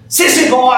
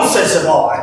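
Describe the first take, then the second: First: A sudden loud alarmed yell, pitched high; shouted call. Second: Said in the usual way. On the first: Acted. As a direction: call out to him in alarm at full voice. Yelling at the fighting sissy boy.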